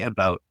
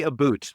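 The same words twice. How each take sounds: First: "about" with a longer O, not an oo; real Canadian "about". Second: "a boot" with an oo vowel, the overdone Canadian "about"; exaggerated Canadian "boot". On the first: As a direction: draw out the O in "about" without overdoing it. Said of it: "it's a longer O". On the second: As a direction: say "a boot" to rhyme with "suit". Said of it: "It's over-exaggerated". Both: Shown as a demonstration.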